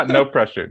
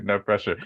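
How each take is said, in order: First: Laughing "No pressure" a little louder; a teasing laugh to put her at ease. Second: Said in the usual way. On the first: Real, not acted. Laughing reassurance to guest.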